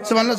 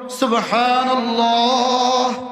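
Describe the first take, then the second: First: It is said fast, in one breath. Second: It is said slowly, with a pause.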